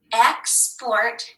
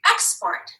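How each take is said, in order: First: Said in the usual way. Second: Export. said again higher, falling; higher echo of Export; echoed word. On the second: Shown as a demonstration. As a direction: repeat Export. up high, then drop.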